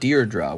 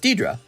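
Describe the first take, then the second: First: An R sound comes after the first vowel. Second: There is no R sound after the first vowel. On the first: "with an R in the in front of the first D" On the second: "It's Deidre"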